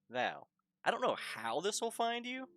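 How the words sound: It is read in a put-on character voice. The writer truly doesn't know how it will arrive. "when you say it in your head in his voice"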